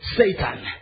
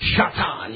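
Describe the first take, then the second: First: The name begins with a plain s sound. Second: The name begins with an sh sound. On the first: The speaker calls it wrong. "I know we say Satan" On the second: The speaker calls it right. "That's the proper pronunciation"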